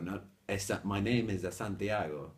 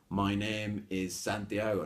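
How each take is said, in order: First: An extra vowel sound comes before 'Santiago'. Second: 'Santiago' starts directly with the s sound. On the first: The speaker calls it wrong. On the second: The speaker calls it right.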